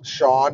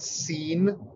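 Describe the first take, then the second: First: It is said as shawn. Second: It is said as seen. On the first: The speaker calls it right. "it's Sean" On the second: The speaker calls it wrong. "and not Scene"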